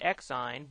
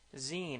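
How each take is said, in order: First: It does not rhyme with 'magazine'. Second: It rhymes with the end of 'magazine'. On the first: This is the speaker's own habitual way of saying it. The speaker calls it wrong. "I call it Xine" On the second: This is the official way to say the name. The speaker calls it right. "the correct pronunciation is Zine, as in Max Zine without the M A"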